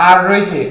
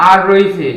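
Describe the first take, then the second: No difference in how they are said.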